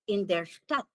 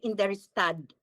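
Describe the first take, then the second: First: The last word ends with a T sound. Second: The last word ends with a D sound. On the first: The speaker calls it right. "but go to the T" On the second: The speaker calls it wrong. "You don't say"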